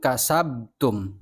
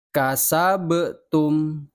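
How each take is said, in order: First: "kasabtum" with the b held shut, no release; wrong flat ba. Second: "Kasabtum" very slow, the b released with a bounce, "kasa-be-tum"; bouncing ba. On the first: Teacher warns pupils with the wrong reading, no bounce. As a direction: close the b in "kasabtum" dead. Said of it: "Awas, bacanya jangan kasabtum". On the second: Teacher models the bouncing ba for pupils, very slow. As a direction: let the b in "Kasabtum" rebound. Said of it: "Bukan kasabtum". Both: Shown as a demonstration.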